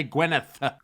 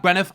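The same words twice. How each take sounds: First: Gwyneth ending in a clear th sound. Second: Gwyneth ending in an f sound, "Gwynef". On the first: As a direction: say Gwyneth with a proper th at the end. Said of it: "I meant to say Gwyneth". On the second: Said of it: "didn't pronounce the T H as th". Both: Shown as a demonstration.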